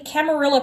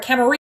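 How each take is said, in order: First: The double L is said as an L sound. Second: The double L is said as a Y sound.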